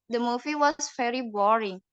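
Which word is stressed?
boring. The stress falls on the word boring. "Untuk yang di pertama itu di kata boring penekanannya"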